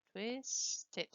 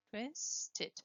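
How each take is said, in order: Both takes have the same delivery.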